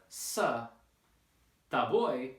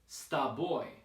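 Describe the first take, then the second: First: The two words are said separately. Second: The two words are blended into one. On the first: The speaker calls it wrong. "instead of sa, ta boy" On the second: The speaker calls it right. "we should combine these uh, sounds, and this is called blending"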